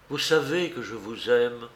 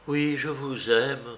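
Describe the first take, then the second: First: Said in the usual way. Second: Slow, mildly emphatic "je vous aime"; "je vous aime" affirmed slowly, with restrained force; forceful avowal. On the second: A narrator's reading. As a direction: draw out "Oui, je vous aime" with conviction. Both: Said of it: "ajouta-t-elle avec force".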